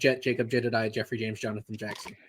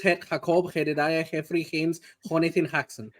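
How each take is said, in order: First: The names begin with a J sound. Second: The names begin with an H sound.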